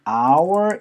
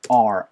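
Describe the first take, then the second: First: The word is said fully as 'our'. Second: The word is cut down to a short 'R'. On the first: "원래 여러분들이 our 이라는 사운드를 들어보시는 게 맞아요" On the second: "빠르게 연결할 때는 그냥 이거를 R"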